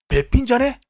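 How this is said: It is said in a young person's casual style. The speaker calls it wrong. "20 代"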